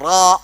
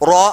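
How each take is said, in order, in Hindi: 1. स्वर सपाट होंठों से बोला जाता है। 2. स्वर गोल होंठों से बोला जाता है। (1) "गोल होने से उसको फ्लैट करना है" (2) "यानी मतलब ये गोल हो रहा"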